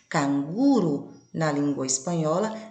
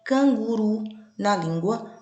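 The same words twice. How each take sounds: First: Canguru said the Spanish way, stress on the last syllable, ru; "canguru" with the Spanish rolled r and final stress. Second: Canguru said the Portuguese way, slower, softened vowels; "canguru" in Brazilian Portuguese, reduced first vowel; Portuguese stress. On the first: Teacher contrasting Spanish and Portuguese stress, Spanish pronunciation. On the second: Teacher contrasting Spanish and Portuguese stress, Portuguese pronunciation. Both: Shown as a demonstration. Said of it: "Com as sílabas tônicas em locais distintos".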